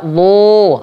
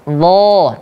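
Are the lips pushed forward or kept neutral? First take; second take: pushed forward; neutral. First: The lips are pushed forward and rounded. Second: The lips stay neutral, not pushed forward. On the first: The speaker calls it wrong. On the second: The speaker calls it right.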